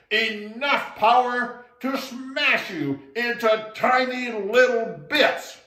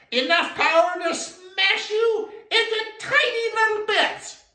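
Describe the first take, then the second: First: Booming, slow, loud spirit threat; loudest voice. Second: High, loud shout of a tiny frog; tiny frog threat. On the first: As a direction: thunder the threat from the hollow tree. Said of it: "said in his loudest voice". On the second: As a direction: squeak out the threat at full force. Little frog threatens elephant. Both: Acted.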